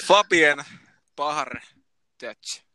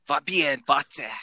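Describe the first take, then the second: First: "Fabien Bahar Dutch" as a Finn reads it, word by word; spell-it-out Finnish reading of "Fabien Bahar Dutch", pausing between parts; Finnish-style pronunciation. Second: Slow foreign pronunciation of "Fabien Batze", German-style; German accent. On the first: Host repeats the name for those who missed it, Finnish-style pronunciation. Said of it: "Sanotko sä vielä suomalaisittain?". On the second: Host reads the mystery player's name for co-hosts, German accent. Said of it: "Saksalaisella aksentilla". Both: Shown as a demonstration.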